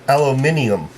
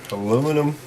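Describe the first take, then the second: First: It is said the British way, five syllables. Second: It is said the American way, four syllables.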